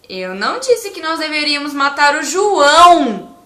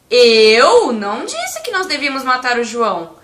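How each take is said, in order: First: The word 'João' is stressed. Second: The word 'eu' is stressed. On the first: A different person was the intended victim. "E se eu enfatizar a palavra João" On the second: Someone else said it. "Se eu enfatizar a palavra eu"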